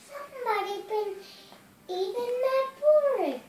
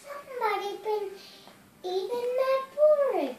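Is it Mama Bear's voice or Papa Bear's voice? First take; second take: Mama Bear's; Mama Bear's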